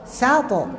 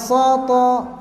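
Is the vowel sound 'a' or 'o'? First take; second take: a; o. First: The vowels are open like 'a'. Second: The vowels are rounded like 'o'. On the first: The speaker calls it right. "Sato, ya" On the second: The speaker calls it wrong. "tidak soto, jangan soto"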